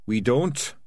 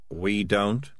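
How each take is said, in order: First: "We don't" pitched up and pushed back firmly; insistent echo. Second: "We don't" lifted into a question; doubtful echo. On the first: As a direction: throw "We don't" back higher and more pointedly. Dark Tan throws it back. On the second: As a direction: query "We don't" in a mild voice, rising at the end. Morris questions what was declared. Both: Acted.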